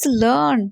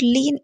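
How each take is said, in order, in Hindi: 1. यह 'learn' की तरह बोला जाता है, इसमें R ध्वनि है। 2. यह 'leen' की तरह बोला जाता है, इसमें R ध्वनि नहीं है। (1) "it's लर्न" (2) "princess is not लीन"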